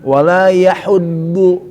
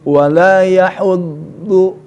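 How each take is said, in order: The two takes are said the same way.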